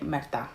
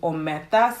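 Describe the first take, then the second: First: The word is said without its first syllable. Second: The word is said in full with its first syllable. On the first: "so she's just saying merta" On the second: "She's referring to omerta"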